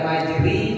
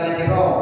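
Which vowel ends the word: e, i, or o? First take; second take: i; o. First: The word ends in an i vowel. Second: The word ends in an o vowel. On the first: "Bukan majri" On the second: "bukan majro"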